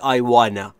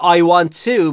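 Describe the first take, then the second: First: The words 'want to' blend into 'wanna'. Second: The words 'want to' are said in full.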